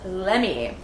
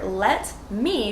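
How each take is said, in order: First: The two words are blended into one unit. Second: The two words are said clearly and separately.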